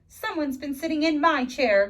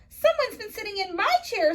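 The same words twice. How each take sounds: First: It is said in a gasping, surprised voice. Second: It is said in a high, squeaky voice.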